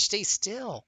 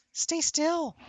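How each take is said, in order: First: High, sing-song plea to the cat; high baby talk to a squirming cat; coaxing pet voice. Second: Put-on much higher, insistent baby talk; very high baby talk begging the cat to hold still; squeaky pet voice. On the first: Acted. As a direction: gently coax a wriggling pet. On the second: Coaxing the squirming cat.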